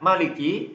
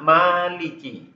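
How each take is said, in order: First: The first vowel is kept short. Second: The first vowel is drawn out long. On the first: "tidak dipanjangkan" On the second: "lebih panjang begitu"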